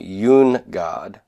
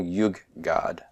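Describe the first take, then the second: First: An n sound comes before the g. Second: A doubled g sound replaces the n. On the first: This is the underlying form before assimilation. "comes from yun, God" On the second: This is the actual form after assimilation. "where the nun assimilates to the gimel"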